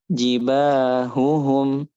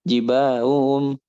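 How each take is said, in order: First: The h sound is clearly pronounced. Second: The h sound is dropped. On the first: The speaker calls it right. "ha ini dia harus dijelaskan dengan jelas" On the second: The speaker calls it wrong.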